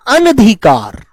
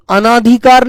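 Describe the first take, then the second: First: अनधिकार with a short अ, said as an-dhikaar; correct pronunciation. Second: अनाधिकार with a long आ after the first अ, said as ana-dhikaar; wrong spelling said aloud. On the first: Teacher gives students the right form अनधिकार, short an. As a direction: clip the न in अनधिकार short and firm. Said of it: "शब्द होता है अनधिकार". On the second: Teacher shows students the wrong form अनाधिकार, ana stressed. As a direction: stretch the ना in अनाधिकार to show the mistake. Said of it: "अनाधिकार नहीं होता शब्द". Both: Shown as a demonstration.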